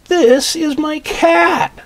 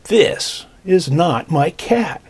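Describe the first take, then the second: First: High, loud, slow joyful cry; overjoyed at finding his cat; happy. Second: Slow, drawn-out disappointment; mildly let down. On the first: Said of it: "Look how happy he is". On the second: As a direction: drag it out, a touch deflated. Boy disappointed, wrong cat. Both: Acted.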